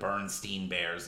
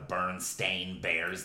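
First: The last syllable of the name sounds like 'steen'. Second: The last syllable of the name sounds like 'stain'. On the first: This is the version remembered from childhood. The speaker calls it right. "They were a Jewish name" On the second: This is the version others say is correct. The speaker calls it wrong. "no, it's Stain"

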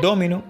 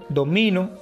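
First: The stress is on the first syllable. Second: The stress is on the middle syllable. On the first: It names the game of dominoes. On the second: It means I dominate.

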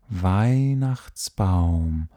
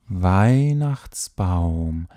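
Both takes have the same delivery.

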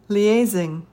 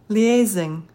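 Both takes have the same delivery.

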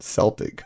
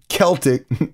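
First: The word begins with a soft S sound. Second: The word begins with a hard K sound. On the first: The speaker calls it wrong. "not Celtic" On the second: The speaker calls it right. "Celtic is spoken with a hard K"

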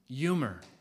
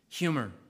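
First: The word begins without any H sound. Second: The word begins with a clear H sound.

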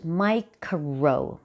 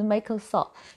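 First: The first part does not sound like Michael. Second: The first part sounds like the name Michael. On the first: The speaker calls it right. "那应该是Microsoft" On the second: The speaker calls it wrong. "念的都不对，都念成一位歌手名字一样的Microsoft"

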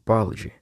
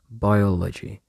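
First: The word is said quickly and compressed. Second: The word is said at a normal pace. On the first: "but I just say it quicker" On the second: "That's how I say it"

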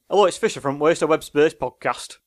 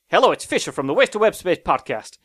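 First: It has a Lancashire accent. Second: It has a New York American accent.

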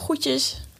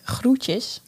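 First: The r after the g is dropped. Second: The r after the g is pronounced.

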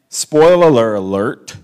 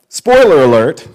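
First: The words are stretched out with extra syllables. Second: The words are said crisply with normal syllables. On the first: The speaker calls it wrong. "I just said that with like 5 extra syllables" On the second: The speaker calls it right. "there we go"

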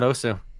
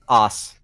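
First: The name ends with an 'oo' vowel sound. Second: The name ends with a consonant sound. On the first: The speaker calls it wrong. "It's not Osu" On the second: The speaker calls it right. "It's pronounced OS"

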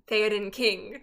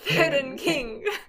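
First: It is said in the speaker's normal voice. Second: It is said in a put-on character voice.

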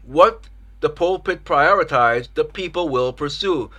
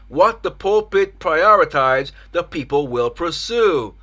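The two takes are said the same way.

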